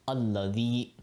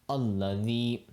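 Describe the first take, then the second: The two takes are said the same way.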